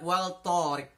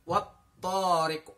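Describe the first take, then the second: First: The l is pronounced before the t. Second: The l merges fully into the following t. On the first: The speaker calls it wrong. "tidak wal tariq" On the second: The speaker calls it right. "kita membaca langsung"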